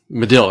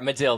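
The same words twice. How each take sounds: First: Medill with stress on the last syllable, muh-DILL; correct pronunciation. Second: Medill said muh-DILL, stress on the end; corrected pronunciation. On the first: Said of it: "It's pr-, pronounced Medill". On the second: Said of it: "fail on my part". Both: Shown as a demonstration.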